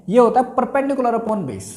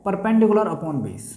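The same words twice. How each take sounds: First: Said in the usual way. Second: Slow, deliberate repeat of "perpendicular upon base". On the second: Shown as a demonstration. Teacher repeating the ratio for students to write, slowly. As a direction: spell out "perpendicular upon base" slowly so they can note it. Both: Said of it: "ठीक है, क्या होता है".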